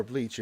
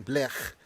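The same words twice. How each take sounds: First: Said in the usual way. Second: Blech ending in a throaty rasp, not "ch"; non-English pronunciation. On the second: Shown as a demonstration. Streamer names a least favourite anime, non-English pronunciation. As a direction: say Blech with a foreign-sounding rough ending. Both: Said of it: "pronouncing it in English".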